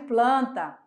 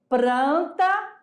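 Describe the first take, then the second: First: The cluster is said with an L sound. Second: The cluster is said with an R sound. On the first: This is the standard form. "no lugar de" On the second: This is a socially marked, nonstandard variety. "Do R pelo L"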